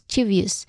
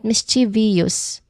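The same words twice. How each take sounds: First: It is said in three syllables. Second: It is said with more than three syllables. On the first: The speaker calls it right. "There's only three distinct sounds in there" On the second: The speaker calls it wrong. "not mischievous"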